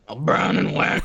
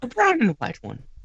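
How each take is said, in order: First: It is said in his plain voice. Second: It is said in a posh British accent.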